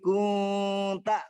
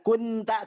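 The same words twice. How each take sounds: First: The n is nasalized, blurred and held longer. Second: The n is pronounced clearly and briefly. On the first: The speaker calls it right. "Kunta ditahan dulu di situ Bapak dan disamarkan" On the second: The speaker calls it wrong. "tidak kunta"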